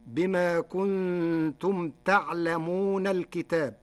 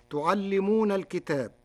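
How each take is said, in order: First: Slow, تعلمون as ta'lamūn; تعلمون with fatha, silent ayn, light lam; Warsh reading. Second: تعلمون as tu'allimūn; تعلمون with damma and doubled lam; Hafs reading. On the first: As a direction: recite ta'lamūn slowly. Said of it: "بفتح التاء وسكون العين وفتح اللام مخففة". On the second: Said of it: "بفتح التاء وسكون العين". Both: Shown as a demonstration.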